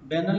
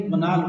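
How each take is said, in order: First: The first vowel sounds like 'bay'. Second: The first vowel sounds like 'buh'. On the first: The speaker calls it wrong. "बैनल नहीं पढ़ेंगे" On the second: The speaker calls it right. "बनाल word है"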